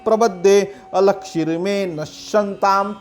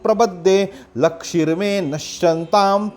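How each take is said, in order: First: An 'a' sound is heard before 'lakshirme'. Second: No 'a' sound is heard before 'lakshirme'. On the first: The speaker calls it right. "अलक्षिर में ही सही उच्चारण है" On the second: The speaker calls it wrong. "लक्षिर में सही उच्चारण नहीं है"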